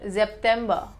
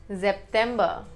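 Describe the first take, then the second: No difference in how they are said.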